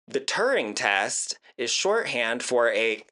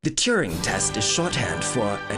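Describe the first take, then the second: First: It is read in the speaker's own accent. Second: It is read in an imitated British accent.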